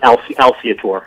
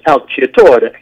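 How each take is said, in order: First: The name is pronounced the English way. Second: The name is pronounced the Italian way. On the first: This is how the family itself says the name. "But we pronounce it Alciatore" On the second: This is how the name is said in its original language. "the Italian pronunciation is Alciatore"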